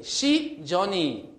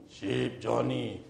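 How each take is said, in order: First: High, loud, drawn-out call; stretched-out, raised calling tone; calling a sheep. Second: Slow imitated sheep call, unraised; drawn-out call at an ordinary pitch; calling in another tone. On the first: Acted. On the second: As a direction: mimic the call in an altered voice. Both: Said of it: "he can even hear the intonation, the tone".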